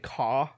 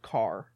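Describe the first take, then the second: First: The word ends without an r sound. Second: The word ends with a clear r sound. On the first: This is how British people say it. The speaker calls it wrong. "Like how they say caw" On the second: This is how Midwesterners say it. The speaker calls it right. "You're supposed to say car"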